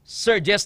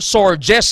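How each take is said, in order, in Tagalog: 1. Ang unang pantig ay parang 'sir'. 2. Ang unang pantig ay parang 'sore'. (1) "Surges ni sa mag-pronounce ha" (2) "Hindi nga storm surges ha"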